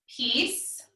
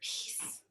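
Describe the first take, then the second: First: It is spoken in a normal voice. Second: It is spoken in a whisper.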